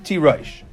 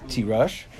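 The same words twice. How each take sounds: First: "tirosh" with an oy vowel, tee-ROYSH; pronounced with vav. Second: "tirosh" with a short final vowel, as spelled without a vav; pronounced as spelled. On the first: Teacher showing the read form, "tirosh" as tee-ROYSH. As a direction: say "tirosh" with a full -oysh ending for the vav. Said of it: "but it's pronounced with a vav". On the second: Teacher showing the written form, "tirosh" ending in a short -ush. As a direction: say "tirosh" as tee-RUSH, with no oy sound. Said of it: "it's spelled without a vav". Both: Shown as a demonstration.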